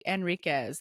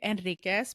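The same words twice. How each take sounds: First: It is said with an English pronunciation. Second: It is said with a Spanish pronunciation. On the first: Listeners on the phone understand it. "I'm always like Enriquez" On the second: Listeners on the phone do not understand it. "I don't even say Enriquez because they don't understand me"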